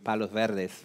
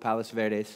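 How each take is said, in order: First: The name is said with a Spanish pronunciation. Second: The name is said with an English pronunciation. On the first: This is how it is said in Peru. "it'd be Palos Verdes for us in Peru" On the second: This is how it is said locally. "I've been practicing that pronunciation to make sure I get it right"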